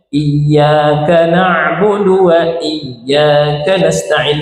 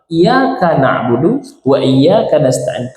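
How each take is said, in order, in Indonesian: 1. Y pada iyyaka dibaca panjang, dobel. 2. Y pada iyyaka dibaca pendek, tunggal. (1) "kalau kita menggunakan lafaz iya dengan menggunakan kalimat tasdid" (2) "begitu tasdidnya hilang"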